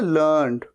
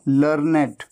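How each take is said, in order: First: The word is said as one syllable. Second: The word is said as two syllables. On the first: It is the past form of the verb to learn. "इसकी third form भी होती है लर्नड, लेकिन इसे कैसे बोला जाता है" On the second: It describes a very educated person. "जबकि ये क्या है"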